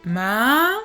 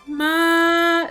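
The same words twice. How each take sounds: First: The pitch rises from low to high. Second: The pitch stays high and level. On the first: It means numb or insensitive. "on va vers le haut, on change d'intensité, donc ça va plutôt du grave vers l'aigu" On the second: It means mom. "c'est aigu et ça ne se modifie pas"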